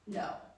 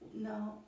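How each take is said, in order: First: It sounds firm and decisive. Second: It sounds meek, like a question.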